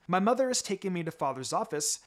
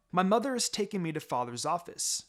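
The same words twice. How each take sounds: The two takes are said the same way.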